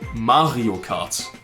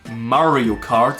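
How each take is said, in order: First: The R sounds are German throaty Rs. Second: The R sounds are American English Rs. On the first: "I would say Mario Kart" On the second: "Instead of Mario Kart"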